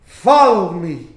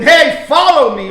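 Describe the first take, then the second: First: Slow, lower, humble invitation; soft, humble. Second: Loud, raised-pitch yelled order; yelling. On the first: Jesus imagined calling Matthew humbly, soft humble tone. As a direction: say it slowly and humbly, pitch dropped. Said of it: "in a soft tone, in, in a very humble voice". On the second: Jesus imagined yelling at Matthew to follow, yelling. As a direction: yell it out to get his attention. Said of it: "Did he yell at him". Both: Acted.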